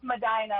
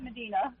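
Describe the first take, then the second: First: "Medina" as meh-DYE-nah; local Ohio pronunciation. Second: "Medina" as meh-DEE-nah; usual outsiders' pronunciation. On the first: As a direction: stress a long-i "dye" in the middle of "Medina". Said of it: "it's pronounced". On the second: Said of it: "Everyone else calls it". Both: Shown as a demonstration.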